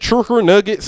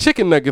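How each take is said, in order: First: An r sound is added inside chicken. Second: Chicken is said plainly without an added r. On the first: The speaker calls it wrong. "they could throw some R's" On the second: The speaker calls it right. "it's chicken nuggets, not churker nuggets"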